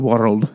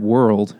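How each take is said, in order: First: The word is said in a Scottish accent. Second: The word is said in a plain American accent. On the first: "And he's like, the world. ... half bird call, half human word" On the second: "Like the word world, as in, you know, the planet Earth"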